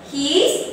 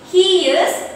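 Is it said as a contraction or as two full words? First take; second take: contraction; full words. First: The words are run together as one shortened word. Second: Both words are said separately in full.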